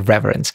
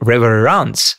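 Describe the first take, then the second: First: The word is said with an English pronunciation. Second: The word is said with a non-English pronunciation. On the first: This is how English speakers would say the title. "in English it will be reverence" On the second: This is how the title is meant to sound. "it's supposed to be reverence"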